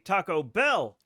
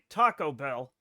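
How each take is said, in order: First: The stress falls on the word bell. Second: The stress falls on the word taco. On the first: The speaker calls it wrong. "they put the emphasis on the bell" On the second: The speaker calls it right. "normal people, I feel, say Taco Bell. As in what kind of bell? The taco"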